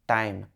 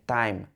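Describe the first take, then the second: Both takes have the same delivery.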